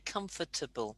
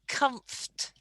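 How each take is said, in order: First: The word is said with four syllables. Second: The word is said with three syllables. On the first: The speaker calls it wrong. "Don't say comfortable" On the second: The speaker calls it right. "we only pronounce it like it's got three syllables"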